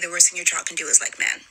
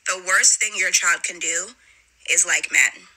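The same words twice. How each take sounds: First: It is said fast. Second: It is said slowly.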